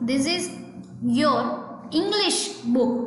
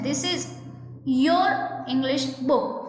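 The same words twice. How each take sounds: First: The main stress falls on the word English. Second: The main stress falls on the word your. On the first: The book's subject is English. "બુકનો subject બરાબર એની ઉપર stress આપવા માંગો છો" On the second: The book belongs to you. "કયા word ઉપર stress આપેલો છે તો કે યોર"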